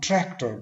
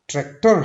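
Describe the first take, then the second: First: The stress is on the first syllable. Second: The stress is on the second syllable. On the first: The speaker calls it right. "हम tractor बोलेंगे" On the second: The speaker calls it wrong. "Tractor हम नहीं बोलेंगे"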